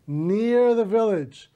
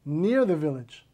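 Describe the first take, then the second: First: Teacher leaning on Near; stress on near. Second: Said in the usual way. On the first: Shown as a demonstration. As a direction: hit the word Near so the class catches it. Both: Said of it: "Near is Eliad".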